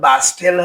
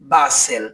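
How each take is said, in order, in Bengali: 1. মাঝখানে t সাউন্ডটি উচ্চারিত হয়। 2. মাঝখানে t সাউন্ডটি নীরব থাকে। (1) "হবে না" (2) "এর উচ্চারণ হবে"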